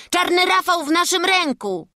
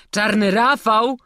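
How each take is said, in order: First: Put-on higher-pitched boy reporting big news; eager announcement. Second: Loud, high incredulous question, drawn out; scornful disbelief. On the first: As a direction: announce it firmly, falling at the end. Boy announces capture to guard. (przejęte oznajmienie) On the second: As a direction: echo the name in mocking disbelief, rising. Guard scoffs at the boys' claim. (drwiące niedowierzanie) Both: A narrator's reading.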